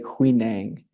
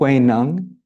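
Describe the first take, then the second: First: It is said the way the English spelling suggests. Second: It is said closer to the Chinese pronunciation. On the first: The speaker calls it wrong. "spelled in a way where we want to say Huineng" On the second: The speaker calls it right. "to pronounce it Huineng"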